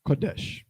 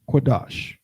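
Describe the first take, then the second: First: The vowels are 'o' and then 'e'. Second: Both vowels are an open 'ah' sound. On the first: This is the modern form of the word. The speaker calls it wrong. "in Yiddish, modern Hebrew, this word is pronounced like this" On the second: This is the ancient form of the word. The speaker calls it right. "in ancient with ancient letters, this is how it would look"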